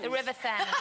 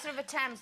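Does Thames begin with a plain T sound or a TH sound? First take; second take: TH sound; plain T. First: Thames begins with a TH sound. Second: Thames begins with a plain T sound. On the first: The speaker calls it wrong. "they always said the Thames... There's an H in it" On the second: The speaker calls it right. "no, it's the River Thames"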